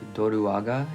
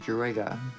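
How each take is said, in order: First: The name is said with Japanese-style sounds. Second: The name is said with English-style sounds. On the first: This is the original way of saying it. The speaker calls it right. "like Doruaga in Japanese" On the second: This is the familiar childhood way of saying it. The speaker calls it wrong. "My kid self is going to pronounce it the way they did over twenty years ago"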